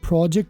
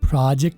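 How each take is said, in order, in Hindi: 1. यह ब्रिटिश लहजे में कहा गया है। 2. यह अमेरिकन लहजे में कहा गया है। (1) "प्रोजेक्ट करूं तो ब्रिटिश है" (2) "प्रोजेक्ट करूं तो अमेरिकन में"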